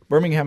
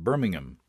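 First: It is said with an American accent. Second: It is said with an English accent.

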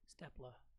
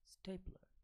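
First: The first vowel is short, as in 'step'. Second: The first vowel is long, as in 'stay'. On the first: The speaker calls it wrong. "So they pronounce it like same way" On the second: The speaker calls it right. "This is supposed to be pronounced the same way as staple, and it becomes stapler"

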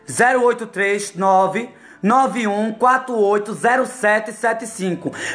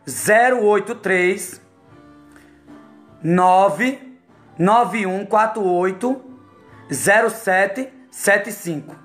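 First: The number is said at normal speed. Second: The number is said very slowly.

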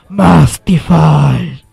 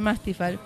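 First: The name is shouted out with loud excitement. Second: The name is said in a calm, flat voice. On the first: The speaker calls it right. "se dice así. A ver, ahora que tengo el micrófono, sí me sale" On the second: The speaker calls it wrong. "pero no se dice así"

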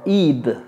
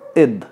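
First: The ending is said in a heavy, exaggerated way. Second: The ending is said in a light, unexaggerated way. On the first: The speaker calls it wrong. "No es algo así tan pronunciado como id" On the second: The speaker calls it right. "es id"

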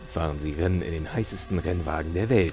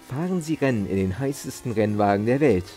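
First: It is read in a low, scratchy voice. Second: It is read in a normal speaking voice.

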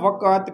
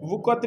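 First: The word is said with an added 'a' vowel. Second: The word is said without the extra vowel. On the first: The speaker calls it right. "वकत कहना है, वाव के ऊपर जबर है" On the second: The speaker calls it wrong. "वकत नहीं कहना"

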